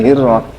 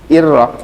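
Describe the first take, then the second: First: The h sound is faint and nearly lost. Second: The h sound is pushed out strongly. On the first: The speaker calls it wrong. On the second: The speaker calls it right. "harus dihentak"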